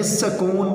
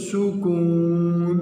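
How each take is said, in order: First: سکون said "sakoon", with an a first; children's mispronunciation. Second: سکون slowly as "su-koon", with a u first; correct pronunciation. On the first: Teacher quoting how children will read it, mispronunciation. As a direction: say سکون as "sa-koon". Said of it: "بچے پڑھیں گے لیکن درست". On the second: Teacher giving pupils the right vowel, correct pronunciation. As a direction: stretch سکون into "su-kooon". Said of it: "لیکن درست سکون". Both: Shown as a demonstration.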